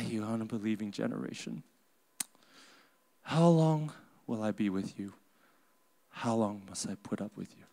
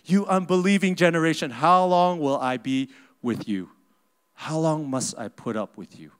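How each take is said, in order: First: It sounds sad and lamenting, with a sigh. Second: It sounds angry and annoyed.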